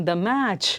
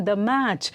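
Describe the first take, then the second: Both takes have the same delivery.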